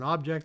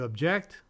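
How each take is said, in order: First: The stress is on the first syllable. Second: The stress is on the last syllable. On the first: It is a noun. "there's an object on the table" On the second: It is a verb. "You object as an attorney"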